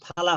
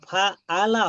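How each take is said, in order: First: Fa runs straight into ala with no catch. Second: A throaty catch separates fa from ala. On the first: The speaker calls it wrong. "ফালা ফালা হবে না" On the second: The speaker calls it right. "ফা আলা হবে"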